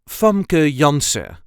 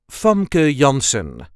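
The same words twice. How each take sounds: First: The final n of Janssen is dropped. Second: The final n of Janssen is pronounced. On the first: "I do not pronounce the N at the end" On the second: "If you want, you can, and it will sound like this"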